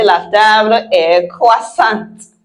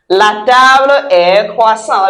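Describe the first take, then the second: First: "croissante" with a clear t at the end; sounded final T. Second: "croissant" ending on the nasal vowel, no t; silent final T. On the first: Teacher corrects for feminine la table, sounded final T. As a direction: finish "croissante" on a released "t". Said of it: "Because it's la table, we say". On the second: Teacher models the word before correcting its gender, silent final T. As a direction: leave the t off the end of "croissant". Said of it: "we say la table est croissante". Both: Shown as a demonstration.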